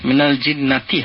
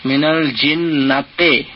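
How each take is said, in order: First: The last word ends with an 'i' vowel. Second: The last word ends with an 'e' vowel. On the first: The speaker calls it right. "মিনাল জিন্নাতি হবে" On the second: The speaker calls it wrong. "নাতে যেন না হয়ে যায়"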